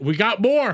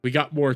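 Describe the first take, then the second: First: Rising excited cry to the chat; excited announcement. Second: Said in the usual way. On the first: Real, not acted.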